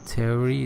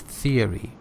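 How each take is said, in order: First: It starts without a th sound. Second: It starts with a th sound. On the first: The speaker calls it wrong. "it's not theory" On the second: The speaker calls it right. "it's theory"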